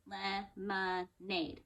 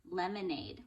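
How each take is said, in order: First: Lemonade slow, each syllable apart; clapped out syllables. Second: Said in the usual way. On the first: Shown as a demonstration. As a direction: clap Lemonade out slowly. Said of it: "Let's clap it out". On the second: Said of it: "Next word Leo brought for you is".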